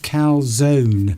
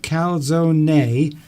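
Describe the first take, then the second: First: The final vowel is dropped at the end. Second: The final vowel is sounded at the end. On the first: "or just calzone?" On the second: "do you pronounce the e?"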